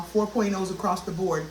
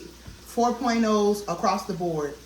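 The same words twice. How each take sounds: First: Said in the usual way. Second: "Four point ohs across the board" said slowly, each word weighed; slow emphatic repeat. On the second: Real, not acted. Vlogger repeating her grades slowly for emphasis. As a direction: spell it out slowly so they clock it. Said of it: "Clock it".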